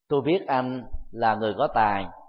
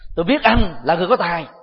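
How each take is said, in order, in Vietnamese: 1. Được nói với giọng bình thường, lịch sự, trung tính. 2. Được nói với giọng châm chọc, thù địch, có ý cảnh cáo. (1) "Ngữ điệu bình thường đó đang thể hiện cái mối xã giao thông thường" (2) "Bây giờ ta thử đổi ngữ điệu"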